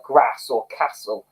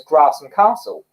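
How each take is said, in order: First: GRASS and CASTLE with short northern a; northern vowels. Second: GRASS and CASTLE with long ah; southern vowels. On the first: Imitating neighbour's daughter's speech, northern short a in GRASS, CASTLE. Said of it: "The way she says certain words". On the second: Quoting how locals around here speak, long ah in GRASS, CASTLE. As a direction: say "grass and castle" as "grahss and cahstle". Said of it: "everyone else around here says". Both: Retold or imitated.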